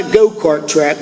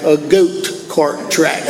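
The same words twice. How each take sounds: First: "go-kart track" said slowly as the wrong name; deliberate, slowed "go-kart track", open vowel in GO; careful contrast. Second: "goat cart track" very slow, word by word; drawn-out "goat cart track", each word separate; careful correction. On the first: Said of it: "Not a go-kart track, a goat cart track". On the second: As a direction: sound the T ending "goat", then a gap before "cart track". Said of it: "Not a go-kart track". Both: Shown as a demonstration.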